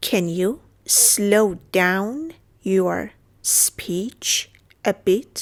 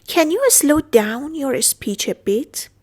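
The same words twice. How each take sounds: First: Very slow, with pauses between chunks; halting, careful dictation pace; slow broken-up repeat. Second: Said in the usual way. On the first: Shown as a demonstration. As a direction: break it up piece by piece for learners. Teacher repeats phrase in pieces.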